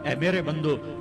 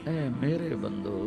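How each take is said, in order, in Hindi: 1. यह सख़्त और बिना प्यार के लहजे में कहा गया है। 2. यह गर्म और प्यार भरे लहजे में कहा गया है।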